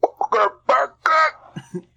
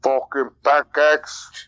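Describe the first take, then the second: First: Very slow, much higher silly voice; hammed-up catchphrase. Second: Very slow mock Russian accent. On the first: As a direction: drag it out in a high put-on voice. Repeats the running accent bit. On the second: Shown as a demonstration. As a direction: attempt a Russian accent, dragged out. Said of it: "Can you do a Russian".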